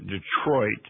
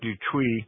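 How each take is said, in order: First: The name is said with an American pronunciation. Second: The name is said with a French pronunciation. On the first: "They pronounce it Detroit" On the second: "most Americans pronounce that differently"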